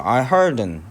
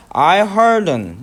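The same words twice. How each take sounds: First: "I heard an" said quickly as one unit, "an" reduced to a weak "un"; linked unstressed article. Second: "I heard an" run together, "an" reduced to a weak "un"; linked unstressed article. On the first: Teacher repeating the linked "I heard an" for the class, linked pronunciation. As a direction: run "I heard an" together with a weak "an". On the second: Teacher demonstrating to students how "I heard an" links, linked pronunciation. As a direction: glide "heard" straight into a weak "an". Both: Shown as a demonstration. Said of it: "이렇게 붙었어요".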